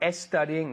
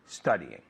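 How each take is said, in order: First: An extra e vowel comes before the s. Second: The word starts directly with the s sound. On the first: The speaker calls it wrong. "No studying" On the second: The speaker calls it right. "pero spent studying"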